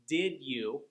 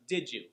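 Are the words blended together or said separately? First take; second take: separate; blended. First: The two words are said separately and fully. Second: The two words are blended into one reduced form.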